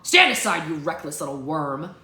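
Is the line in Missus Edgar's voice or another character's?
another character. It is in another character's voice.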